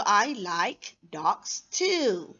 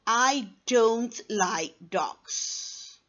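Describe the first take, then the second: First: Slow, with TOO drawn out and swooping; happy intonation. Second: Very slow, DOGS going down at the end; falling intonation. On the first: Teacher shows someone who likes dogs, happy intonation. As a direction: draw out TOO happily. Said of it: "Happy because that person like the dogs". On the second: Teacher shows someone who dislikes dogs, falling intonation. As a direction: let "don't like dogs" sink slowly. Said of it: "intonation is going to go down". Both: Shown as a demonstration.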